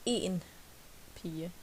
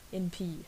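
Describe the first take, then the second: First: The word en is said fully and clearly. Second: The word en is said reduced and weak. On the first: It means one girl, not two. "if you want to be one girl, you say en pige" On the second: It means just a girl. "If it's a girl, it, it more like b"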